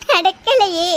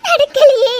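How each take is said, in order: First: Fading sob. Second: Louder, higher anguished cry on நடக்கலையே. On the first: Mother laments to friend, fading into a sob. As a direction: let it die into a sob. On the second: Mother laments to friend, anguished cry. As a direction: wail it out. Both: Acted. Lament over lost daughter.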